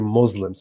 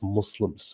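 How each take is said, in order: First: It is pronounced with an anglicized Western accent. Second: It is pronounced with an Arabic accent. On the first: "Or I say Muslims" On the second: "instead of Muslims"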